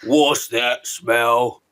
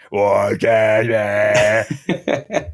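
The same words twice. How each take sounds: First: Slow, drawn-out giant voice; BFG giant voice. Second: Slow robot voice shout. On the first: Retold or imitated. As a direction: stretch it out like a friendly giant. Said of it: "Just get him to do". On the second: Shown as a demonstration. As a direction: drag it out like a robot filter. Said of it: "a robot voice filter on him".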